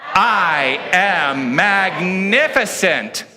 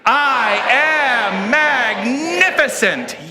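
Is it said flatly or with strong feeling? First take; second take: flatly; strong feeling. First: It is said flatly, without much feeling. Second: It is said with strong, energetic feeling.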